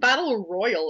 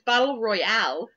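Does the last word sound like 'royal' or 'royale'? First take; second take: royal; royale. First: The last word sounds like plain 'royal'. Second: The last word ends with a full 'ale' sound. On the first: The speaker calls it wrong. "Why are you saying Battle Royal?" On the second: The speaker calls it right. "there's an E on the end of Royale"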